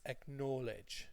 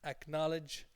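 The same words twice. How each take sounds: First: The middle syllable sounds like the word know. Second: The middle syllable rhymes with the word college. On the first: The speaker calls it wrong. "they see the word know ... and they think it's acknowledge" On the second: The speaker calls it right. "it's acknowledge like college"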